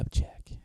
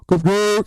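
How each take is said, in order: First: It is said softly, almost whispered. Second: It is said loudly, with lots of force.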